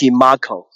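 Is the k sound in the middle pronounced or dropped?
pronounced. The k sound in the middle is pronounced.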